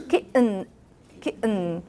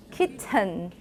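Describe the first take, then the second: First: Kitten with the T caught in the throat; kitten: glottal stop straight into a syllabic N. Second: Kitten with a clearly released T; unreduced pronunciation. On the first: Teacher shows the changed kitten, T as glottal stop. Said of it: "and then you say". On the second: Teacher gives class the original kitten, T released. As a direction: say kitten with a full, audible T. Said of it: "What, what was this?". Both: Shown as a demonstration.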